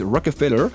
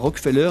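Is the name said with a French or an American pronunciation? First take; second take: American; French. First: The name is said with an American pronunciation. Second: The name is said with a French pronunciation. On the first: This is how the locals say it. "ils disent Rockefeller" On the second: This is not how the locals say it. "Eux ne disent pas Rockefeller"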